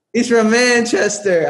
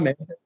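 First: Slow, high and loud, sure of it; confident answer. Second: Said in the usual way. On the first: Shown as a demonstration. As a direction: land "Manchester" with full certainty. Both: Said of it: "I got it right this time".

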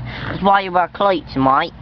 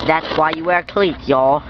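First: Mock Aussie accent, "cleats" as "cloits"; put-on Australian accent. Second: Put-on mild Southern country accent. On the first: Vlogger correcting the country slip, put-on Australian accent. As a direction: say it like an Aussie, "mate" as "mite". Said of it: "my accent goes away". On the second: Vlogger advising viewers on cleats, mistaken country accent. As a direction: slip into a country "y'all" accent. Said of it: "I'm not country".

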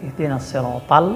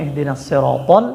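First: "সিরাতাল" ending in a light "tal"; wrong thin ta. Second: "সিরাতাল" ending in a heavy rounded "tol"; correct thick to. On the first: Teacher showing what many say, thin "tal" in "সিরাতাল". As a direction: mimic the mistake, thin t and open a in "সিরাতাল". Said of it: "এখানে অনেকে". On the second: Teacher correcting the error, thick "tol" in "সিরাতাল". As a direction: fatten the t of "সিরাতাল", saying "tol". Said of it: "মোটা করে উচ্চারণ করতে হবে". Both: Shown as a demonstration.

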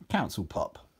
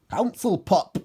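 First: Said in the usual way. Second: High, loud exclamation; Geordie character. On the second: A narrator's reading. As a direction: announce it in a raised Geordie voice. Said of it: "said Geordie Steve".

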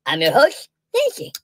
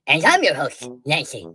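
First: First host. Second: Nancy said low; second host. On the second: Second host introducing herself, low pitched Nancy. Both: Acted. Two hosts both named Nancy.

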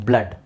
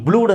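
First: ಬ್ಲಡ್ with a short uh-like a; correct short a. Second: ಬ್ಲೂಡ್ with a long oo; wrong oo in blood. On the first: Teacher correcting the reading of blood, short a. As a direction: say ಬ್ಲಡ್ with uh, not oo. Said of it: "ಆ sound ಬರುತ್ತೆ". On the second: Teacher asking if blood can be said so, wrong oo. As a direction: give ಬ್ಲೂಡ್ the vowel of moon. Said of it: "ಇಲ್ಲ". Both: Shown as a demonstration.

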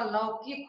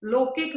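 First: Said in the usual way. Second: लौकिक said "lokik"; wrong vowel. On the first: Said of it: "होता है". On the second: Shown as a demonstration. Teacher correcting a mistake, लौकिक as "lokik". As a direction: use a pure o in लौकिक. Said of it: "नहीं होता".

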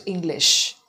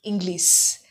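First: "English" with a clear final sh; correct "sh" ending. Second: "English" said as "Inglis", with final s; mispronounced "s" ending. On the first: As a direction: finish "English" firmly on sh, never s. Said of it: "with a sh sound". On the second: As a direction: swap the sh in "English" for a plain s. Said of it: "Many people pronounce it as". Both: Shown as a demonstration.

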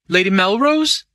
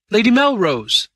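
First: MELROSE rising high into a question; questioning call. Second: MELROSE high and loud, then falling; insistent call. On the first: Crowley at Lady Melrose's open door, questioning call. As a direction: call "Melrose" louder, lifting the pitch to the end. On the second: Crowley calling into Lady Melrose's room, insistent. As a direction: call "Melrose" out firmly, dropping at the end. Calls the name a second time. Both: A narrator's reading.

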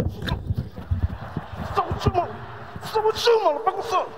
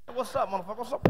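First: High, stretched "What's up with you" greeting; hyped street greeting. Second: Said in the usual way. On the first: Shown as a demonstration. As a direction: greet a buddy with big energy, drawn out. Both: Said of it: "gotta be in shape to say hi".

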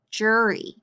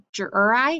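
First: "jury" ending in long "ee"; final Y as E. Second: "jur-I" ending like the word "eye"; final Y as I. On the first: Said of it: "Does that sound right?". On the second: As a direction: blend "jur-I" wrongly with a long I ending. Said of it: "does that make sense?". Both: Shown as a demonstration.

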